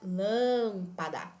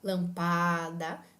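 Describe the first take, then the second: First: The stress is on the first syllable. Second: The stress is not on the first syllable. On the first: The speaker calls it right. "a vogal tônica é o primeiro A, porque nós podemos falar lâmpada" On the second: The speaker calls it wrong. "Nós não podemos falar lampada"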